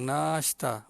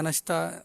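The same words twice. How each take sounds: First: The first vowel is long. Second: The first vowel is short. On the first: The speaker calls it right. "Nun alif panjang" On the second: The speaker calls it wrong. "Kalau kita sebut nashta, nashta, orang tak faham"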